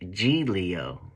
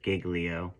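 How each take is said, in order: First: Giglio is pronounced in the Italian way. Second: Giglio is pronounced in an Anglicized way. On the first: The speaker calls it right. "apparently it's supposed to be pronounced Giglio" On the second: The speaker calls it wrong. "she called me a clown for pronouncing it Giglio"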